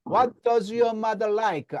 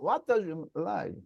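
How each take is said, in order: First: It is said forcefully with choppy, hard accents. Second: It is said softly and weakly, with little force. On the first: The speaker calls it wrong. "햄버거를 지금 먹었어요. ... 떼떼떼거리고 한국 사람 콩글리시가 나오는데" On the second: The speaker calls it right. "굶은 것처럼"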